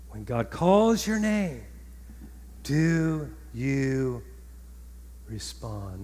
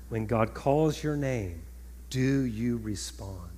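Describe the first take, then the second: First: Slow question, "respond" falling very soft; emphatic repeated question. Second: Slow, low, softened question; weighty, drawn-out low delivery; measured question. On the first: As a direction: lift "calls your name", then slowly drop to a hushed "respond". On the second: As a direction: ask it slowly and quietly, voice sinking. First asking of repeated question. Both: Real, not acted.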